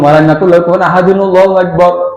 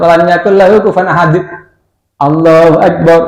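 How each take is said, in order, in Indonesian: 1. Akhir ayat langsung tersambung ke Allahu Akbar. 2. Ada jeda yang memisahkan akhir ayat dari Allahu Akbar. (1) "nyambung itu kita, tidak begitu"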